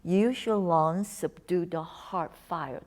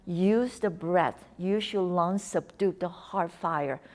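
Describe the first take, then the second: First: Slow poetic repeat. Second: Slow, measured calming words; slow calm mantra. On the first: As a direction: linger on it like a line of poetry. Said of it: "Such a beautiful, like, poetry". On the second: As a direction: recite it like a soothing Qigong saying. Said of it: "That's a Chinese Qigong thing". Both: Shown as a demonstration.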